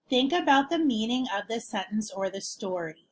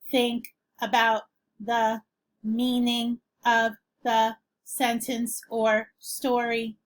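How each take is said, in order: First: It is read in a smooth talking voice. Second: It is read in a flat robotic voice.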